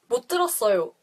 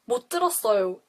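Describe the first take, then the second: No difference in how they are said.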